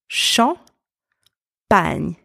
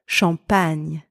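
First: The two syllables are said apart, with a pause. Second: The two syllables are joined quickly without a pause. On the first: "let's combine these two syllables together. We have champ and pagne" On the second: "A bit faster"

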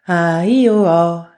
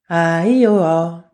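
First: Only the vowel sounds are said, consonants dropped. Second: The same.

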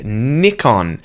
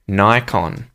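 First: It is said in a non-American pronunciation. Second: It is said in an American pronunciation. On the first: "I would say Nikon" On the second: "I think Americans would say Nikon"

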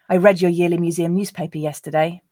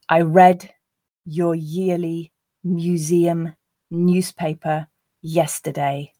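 First: The sentence is said at a natural pace. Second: The sentence is said at a slow pace. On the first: "the second two times at a more natural pace" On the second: "I'll read the first time slowly"

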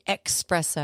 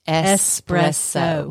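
First: The word has a ks sound after the e. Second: The word has an s sound after the e. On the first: The speaker calls it wrong. "People say espresso. ... There's no X in the word espresso" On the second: The speaker calls it right. "It is espresso"

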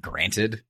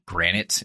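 First: The word ends with a "-ted" sound. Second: The word ends with an "-ite" sound. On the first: The speaker calls it right. "it's supposed to be granted" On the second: The speaker calls it wrong. "you always say granite"

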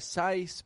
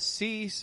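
First: The vowel is an eye sound. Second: The vowel is a long ee sound. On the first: "or a sice" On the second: "Not a cease"

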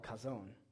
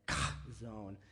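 First: The first sound is a plain, clean k. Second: The first sound is a harsh, raspy throat sound. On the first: The speaker calls it wrong. "I'm saying it improperly" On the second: The speaker calls it right. "you have to hack up like a ball of phlegm when you say it"

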